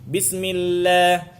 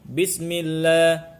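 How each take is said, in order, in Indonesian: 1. Bunyi l-nya tipis dengan bibir melebar. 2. Bunyi l-nya tebal dan berat. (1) "tarqiq itu dengan sedikit menarik huruf lam itu ke belakang"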